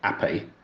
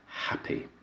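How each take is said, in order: First: The word starts without an h sound. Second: The word starts with a clear h sound. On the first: The speaker is from the poorer parts of East London. "dropped their H's in a word like" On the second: The speaker wants to seem cultured. "anyone wanting to be thought of as cultured would not do so"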